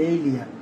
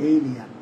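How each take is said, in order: The two takes are said the same way.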